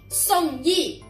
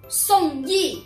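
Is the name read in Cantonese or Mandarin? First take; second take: Mandarin; Mandarin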